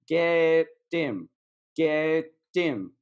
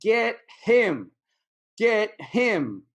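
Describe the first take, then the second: First: "Get him" drawn out slowly, the H of "him" silent; dropped H. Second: "Get him" higher and louder, both words punched with a clear H; emphatic H. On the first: Teacher showing learners the pronunciation trick, dropped H in "him". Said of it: "we don't really say the H sometimes". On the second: Teacher copying the clip for learners, emphatic "Get HIM". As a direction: hit "HIM" hard with the H sounded. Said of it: "Like the emphasis". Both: Shown as a demonstration.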